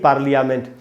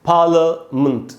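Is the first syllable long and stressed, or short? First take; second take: short; long. First: The first vowel is short and unstressed. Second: The first vowel is long and stressed. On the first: The speaker calls it wrong. "न कि" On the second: The speaker calls it right. "पा में जो आ है वहां पर ज्यादा रुकना है"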